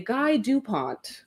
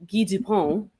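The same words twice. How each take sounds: First: The name is pronounced with English sounds. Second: The name is pronounced with French sounds. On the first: This is how people where he comes from say it. "he's from a place where you would say" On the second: This is how people in Montreal say it. "we are from a place where you would say"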